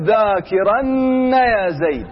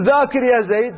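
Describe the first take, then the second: First: ذاكرن drawn out slowly with the nun doubled and stressed. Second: Said in the usual way. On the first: Shown as a demonstration. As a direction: lean on the added nun in ذاكرن, very slow. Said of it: "تقول". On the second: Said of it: "بدل ما تقول".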